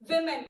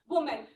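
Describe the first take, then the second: First: The first vowel sounds like 'ih', as in 'wimmin'. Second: The first vowel sounds like 'oh', as in 'woman'. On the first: The speaker calls it right. "it is pronounced as V I M E N, which is called women" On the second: The speaker calls it wrong. "and not women"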